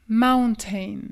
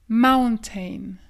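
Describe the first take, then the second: No difference in how they are said.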